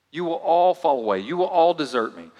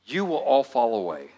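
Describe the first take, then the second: First: Emphatic Jesus. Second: Said in the usual way. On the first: Shown as a demonstration. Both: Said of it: "I want you to see what he says to them".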